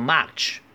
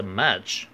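First: "much" with an open "ah", like "match"; mispronounced much. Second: "much" with a relaxed "uh"; correct short vowel. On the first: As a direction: widen the vowel in "much" to "mahch". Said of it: "不要读成much". (把much的元音错读成“啊”) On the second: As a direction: keep the vowel of "much" central, "muhch". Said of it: "会把这个呃". (much的元音读“呃”，不读“啊”) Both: Shown as a demonstration.

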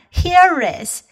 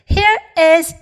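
First: "here is" run together as one word; linked HERE IS. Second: Said in the usual way. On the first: Shown as a demonstration. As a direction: link the r of "here" straight into "is". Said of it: "可以读成here is". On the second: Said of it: "连起来呢".

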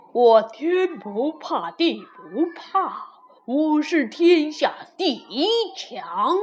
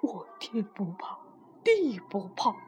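First: Proud, deliberate voice of a mighty wall; chest-out boasting wall. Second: Low, whispery confession; cowed wall speaking very softly; small hushed voice. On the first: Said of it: "挺着胸回答道". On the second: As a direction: shrink the boast to a near whisper. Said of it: "墙小声地说". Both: A narrator's reading.

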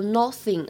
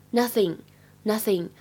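First: "nothing" with a rounded o in place of the short uh; learner's error on "nothing", first vowel as o; mispronounced nothing. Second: Said in the usual way. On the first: Shown as a demonstration. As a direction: say "nothing" wrongly, like "noth-ing" with an o. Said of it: "注意一下，不要把它读成了nothing啊". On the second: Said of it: "是这样一个啊，啊的发音".

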